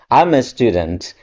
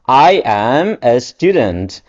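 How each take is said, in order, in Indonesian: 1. I am digabung menjadi satu suku kata yang cepat. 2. I am diucapkan sebagai dua kata terpisah.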